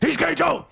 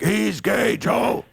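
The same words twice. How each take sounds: First: It is said fast and worked up. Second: It is said calmly, at an even pace.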